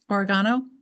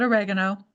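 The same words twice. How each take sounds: First: It is said with a British pronunciation. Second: It is said with an American pronunciation. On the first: "Or maybe the U K" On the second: "here in America, we call it"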